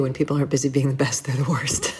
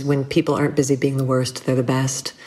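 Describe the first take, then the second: First: Quicker, softer, dry twist on the saying; wry flipped quote. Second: Said in the usual way. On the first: Retold or imitated. Flipping a friend's saying for the host, wry and quick. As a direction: toss off the reversed version with a wink. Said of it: "it's true the other way, too". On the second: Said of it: "a quote that I love that a friend of mine always says".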